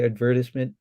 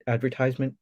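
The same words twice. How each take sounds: First: It is said with a British pronunciation. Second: It is said with a North American pronunciation. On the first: "but I say advertisement" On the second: "I think is the Canadian or uh, North American way to say advertisement"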